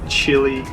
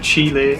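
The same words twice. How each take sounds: First: Chile is said the American way. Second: Chile is said in a non-American way.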